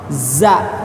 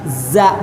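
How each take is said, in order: First: The z is light, with the tongue on the palate. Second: The z is heavy, with the tongue tip at the teeth. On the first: The speaker calls it right. "tapi za di lidah ya" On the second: The speaker calls it wrong. "jadi bukan kena ke ujung gigi, bukan za, bukan begitu"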